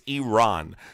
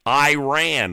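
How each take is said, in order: First: The first syllable does not sound like 'eye'. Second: The first syllable sounds like the word 'eye'. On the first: The speaker calls it right. "It's Iran" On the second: The speaker calls it wrong. "like I ran"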